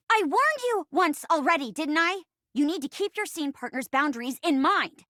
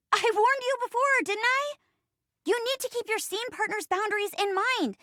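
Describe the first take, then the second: First: Controlled telling-off near normal pitch; firm scolding. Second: High-pitched, exasperated telling-off; indignant scolding. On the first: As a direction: lay down the boundary firmly. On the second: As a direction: scold a partner in a high, worked-up voice. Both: Acted. Acted scolding of scene partner.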